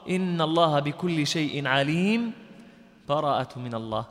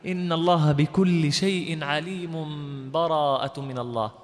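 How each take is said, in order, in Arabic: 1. يوجد وقف تام مع نفس. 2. تُقرأ الكلمات متصلة دون أي سكت. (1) "أو القطع" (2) "الوصل بدون بسملة"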